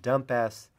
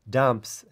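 First: The final s is spoken as a separate letter. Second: The final s blends into one syllable. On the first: "I've called it dumpas ... that S is for string" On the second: "Instead of calling this dumps"

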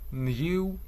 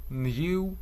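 First: It is said in a British accent. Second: The same.

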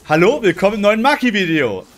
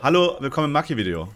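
First: The greeting is said warmly, with affection. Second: The greeting is said plainly, without warmth.

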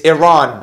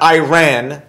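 First: The second syllable does not sound like 'ran'. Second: The second syllable sounds like English 'ran'. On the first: The speaker calls it right. "It's Iran. I have to say it properly" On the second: The speaker calls it wrong. "It's not Iran. They didn't run"

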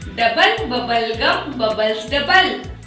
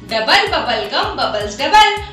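First: It is said at a slower pace. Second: It is said at a faster pace.

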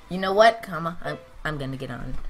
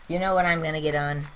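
First: There is a clear pause after 'what'. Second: It runs on without a pause after 'what'.

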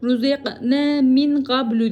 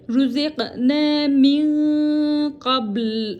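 First: The last word ends with a short vowel. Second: The last word ends on a held consonant. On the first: The recitation continues into the next word. "Ruziqna min qablu diyecektim ya" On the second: The reciter stops here to take a breath. "Sanki burada durak varmış gibi qabl diye durduk"

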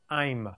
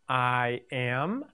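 First: It is said as one contracted word, 'I'm'. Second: It is said as two separate words, 'I am'. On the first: This is the short form, a contraction. "short versions" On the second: This is the full, long form. "the long"

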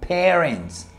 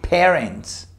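Both takes have the same delivery.

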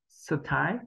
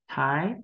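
First: An extra vowel is sounded after the s. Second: The s runs straight into the t. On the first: The speaker calls it wrong. "Với phụ âm S này chúng ta chưa quen thì chúng ta hay đọc là sở" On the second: The speaker calls it right. "chúng ta chỉ có hơi thôi mà không có âm ở sau S"

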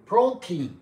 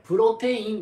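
First: It is said with English-style sounds. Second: It is said with Japanese katakana-style sounds. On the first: The speaker calls it right. "プロテインが正しい読み方です" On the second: The speaker calls it wrong. "プロテインではなく"

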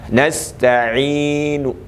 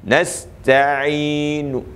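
No difference in how they are said.

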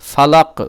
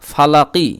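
First: The word ends on the final consonant. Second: The word ends with a short i vowel. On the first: The recitation stops at the end of the verse. "এই কফকে শাকিন করে লাম কফ জবর লাক পড়বেন" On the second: The recitation continues without stopping. "কফ জের কি"

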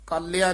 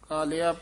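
First: The word is said heavily and forcefully. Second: The word is said softly and lightly. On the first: The speaker calls it wrong. "ਕਾਲਿਆ ਨਹੀਂ ਕਹਿਣਾ" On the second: The speaker calls it right. "ਕਾਲਿਆ ਪੋਲਾ ਹੀ ਬੋਲਣਾ"

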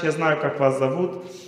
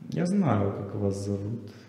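First: It sounds sincere and spontaneous, like a child. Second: It sounds knowing and calculated, like an adult. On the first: The speaker is simply happy, with no hidden aim. The speaker calls it right. "она искренне говорит" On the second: The speaker has a hidden aim. The speaker calls it wrong. "Есть цель"

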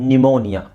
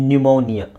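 Both takes have the same delivery.

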